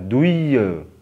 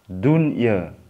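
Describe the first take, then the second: First: The n sound is merged away before y. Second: The n sound is pronounced clearly before y. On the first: The speaker calls it wrong. "jangan dibaca" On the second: The speaker calls it right. "tetap bacanya jelas"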